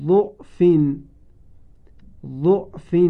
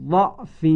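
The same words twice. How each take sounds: First: ضعف with a short u on the first letter; read with damma. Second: ضعف with a short a on the first letter; read with fatha. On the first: Teacher demonstrates damma reading to reciters. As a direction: say ضعف as du'f. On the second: Teacher demonstrates fatha reading to reciters. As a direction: say ضعف as daf. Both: Shown as a demonstration.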